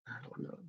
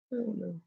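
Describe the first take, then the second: First: Breathy whispered aside. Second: Said in the usual way. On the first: Real, not acted. Reviewer whispering a confused aside to himself. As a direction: whisper it under your breath.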